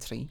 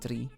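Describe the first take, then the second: First: The word begins with a t sound. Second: The word begins with a d sound. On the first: "almost like a T" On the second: "almost like a D"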